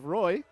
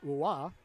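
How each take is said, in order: First: The name is said like English 'roy'. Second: The name is said like French 'rwa'.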